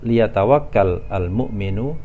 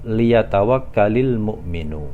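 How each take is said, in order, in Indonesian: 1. Kedua kata dibaca terpisah, akhiran kata kerjanya mati. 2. Kedua kata disambung dengan tambahan bunyi 'i'. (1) "kalau terpisah kita baca" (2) "kalau kita baca menyambung"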